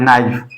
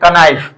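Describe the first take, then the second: First: The word starts with an n sound. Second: The word starts with a k sound. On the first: The speaker calls it right. "इसको नाइफ पढ़ना है, नाइफ ऐसे पढ़ना है" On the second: The speaker calls it wrong. "यदि इसको आप ऐसे पढ़ोगे कनाइफ, तो ये हमारा गलत हो जाएगा"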